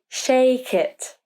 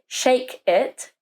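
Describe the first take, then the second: First: The two words are joined without a gap. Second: The two words are separated by a gap. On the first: The speaker calls it right. "we say shake it" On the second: The speaker calls it wrong. "So we don't say shake it"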